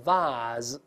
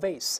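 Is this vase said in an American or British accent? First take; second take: British; American. First: It is said in a British accent. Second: It is said in an American accent. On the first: "英式发音呢，一般发r 的声音叫vase。跟那个袜子差不太多" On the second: "美英中发a vase 或vase"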